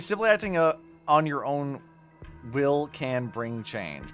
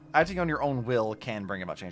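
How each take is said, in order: First: There is a hesitant pause right after acting. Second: It flows on without a pause after acting.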